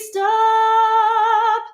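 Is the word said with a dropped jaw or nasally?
dropped jaw. The word sounds open and low with a dropped jaw. The speaker calls it right. "a little bit more of a drop jaw there"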